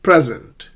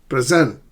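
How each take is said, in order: First: PRE punched loud in "Present"; stress on first syllable. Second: "present" with the weight on SENT; stress on second syllable. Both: Shown as a demonstration. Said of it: "stress the correct syllable".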